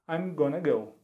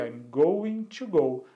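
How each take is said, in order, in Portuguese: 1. 'Going to' é falado junto, como 'gonna'. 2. 'Going to' é dito como duas palavras completas.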